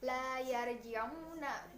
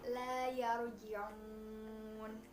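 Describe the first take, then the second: First: The phrase ends with a final vowel. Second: The phrase stops on a final consonant.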